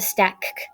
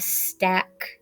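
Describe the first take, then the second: First: The final k sound is said twice. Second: The final k sound is said once. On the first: The speaker calls it wrong. "Doesn't that sound kind of funny?" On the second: The speaker calls it right. "That's right"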